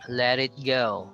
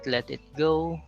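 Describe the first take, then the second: First: The words are linked with a soft D sound. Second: The words are separated with a hard T. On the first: The speaker calls it right. "it's supposed to be pronounced as a soft D" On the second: The speaker calls it wrong. "so it's not"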